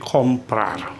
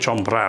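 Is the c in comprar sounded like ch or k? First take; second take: k; ch. First: The c is sounded like a k. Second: The c is sounded like ch. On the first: The speaker calls it right. "maka berbunyi seperti K. Jadi comprar" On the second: The speaker calls it wrong. "bukan comprar ya"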